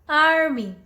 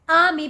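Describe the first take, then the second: First: It is said in an American accent, r sounded. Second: It is said in a British accent, r silent. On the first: "if you're working on your American pronunciation, then you can call it army" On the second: "if you're working on your U K pronunciation, British pronunciation, call it army"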